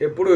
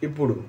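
First: "এপুড়ু" opening on an e sound; e-vowel pronunciation. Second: "ইপুড়ু" opening on an i sound; i-vowel pronunciation. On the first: Teacher contrasting two Telugu words for learners, e-vowel pronunciation. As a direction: start "এপুড়ু" with e, as in epuru. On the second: Teacher contrasting two Telugu words for learners, i-vowel pronunciation. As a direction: start "ইপুড়ু" with i, as in ipuru. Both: Shown as a demonstration. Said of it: "দিগ্গিকার আর একার পার্থক্য".

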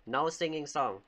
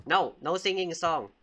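First: Said in the usual way. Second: Louder, firm bedtime order; firm scolding. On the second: Pretend. Babysitter forbidding singing at bedtime, firm. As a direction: lay down the rule to a child.

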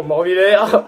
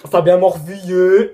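First: "Morvillers" said as "mor-vi-LAIR" with a plain "l"; "Morvillers" repeated carefully the way the friend said it; corrected name. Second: "Morvilliers" said with a full "-illiers" ending; first try at the name. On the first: Fixing a viewer's name, "Morvillers" said correctly. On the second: Reading a viewer's name, "Morvilliers" before being corrected. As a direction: reads the surname "Morvilliers" with the "i-yé" sound before the correction. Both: Real, not acted. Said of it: "Morvi-, pardon".

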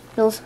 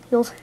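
The two takes are said the same way.

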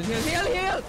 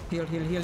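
First: High, loud urgent yelling; panicked shout. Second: Said in the usual way. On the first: Real, not acted. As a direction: scream for a heal.

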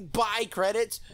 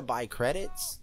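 First: High, incredulous echo of himself; self-mocking disbelief. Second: Said in the usual way. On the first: Real, not acted. Catching his own silly slip, self-mocking disbelief. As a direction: question your own slip in a raised voice.

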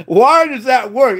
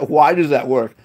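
First: Drawn-out, higher-pitched disbelief; emphatic, slow bafflement; baffled exclamation. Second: Said in the usual way. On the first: Real, not acted. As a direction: stretch the question out in amazement. Baffled emphatic repeat of the question.

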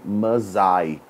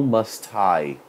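First: Must I run together as "muz-I" with no t; linked American must I. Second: Must I with a clear t, must then I apart; separated must I. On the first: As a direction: glide must into I in one breath, dropping the t. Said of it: "o meu sotaquinho americano eu juntei aqui". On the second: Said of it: "não must I". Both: Shown as a demonstration.

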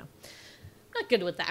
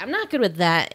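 First: Quiet aside. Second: Said in the usual way. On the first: Real, not acted.

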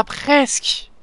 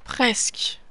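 First: Slow, stretched, higher "Ah, presque" with a rise on "ah"; drawn-out near miss. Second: "Presque" breathed out in a soft whisper, falling. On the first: Gamer groaning at a near miss, stretched and rising. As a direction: savour the almost-win. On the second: Gamer alone at the screen, whispering to himself. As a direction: let it go under your breath. Repeats it after the miss. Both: Real, not acted.

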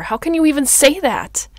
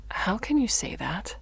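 First: Very loud, high, indignant cry; hurt boiling over into a shout; outraged outburst. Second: Restrained, wounded question; contained, stung reply; hurt disbelief. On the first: Outburst after being accused. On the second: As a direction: ask it hurt, at everyday volume. First hurt reply to accusation. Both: Acted.

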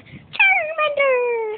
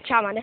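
First: Very high, drawn-out slow cry; slow squealing Charmander call; Charmander impression. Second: Said in the usual way. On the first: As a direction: stretch the name into a long creature cry. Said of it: "do Charmander". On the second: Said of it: "do Char-, Charmander".

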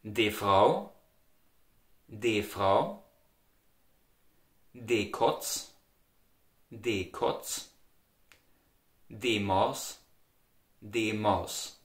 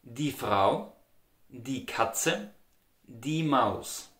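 First: Quiet Austrian "de Frau", "de Kotz", "de Maus"; Austrian dialect. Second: Standard "die Frau", "die Katze", "die Maus" with a full "die"; standard German. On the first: Teacher drills Austrian feminine articles for learners. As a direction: repeat each Austrian form slowly. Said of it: "In the Austrian dialect you would say". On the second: Teacher gives standard feminine examples. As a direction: say "die" cleanly, standard form. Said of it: "In the standard German you would say". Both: Shown as a demonstration.

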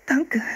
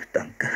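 First: Put-on very high girlish thank-you; girl's thanks. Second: Put-on understated boy's thank-you. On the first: Sister receiving a warm jacket, high-pitched thanks. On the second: Brother receiving his jacket second, low-key thanks. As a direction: echo the thanks in a plainer, lower voice. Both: A narrator's reading. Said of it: "sagten die beiden".

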